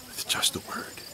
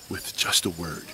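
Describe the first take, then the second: First: Soft breathy whisper of the words; whispered echo. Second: Said in the usual way. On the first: Shown as a demonstration. Preacher whispering to the children for awe. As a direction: hush it to let it sink in. Whispered repeat of Jesus' power.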